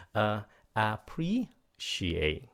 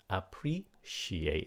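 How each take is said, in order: First: Appreciate stretched very slowly, syllable by syllable; slow pronunciation demo. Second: Appreciate said slowly, second syllable rising, then falling; pronunciation demo. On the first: Teacher modelling Appreciate slowly for students. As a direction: draw out Appreciate so every syllable is heard. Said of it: "phải lên giọng nha". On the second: Teaching students to say Appreciate, second syllable rising. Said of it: "cái âm thứ hai các bạn phải lên giọng nha". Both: Shown as a demonstration.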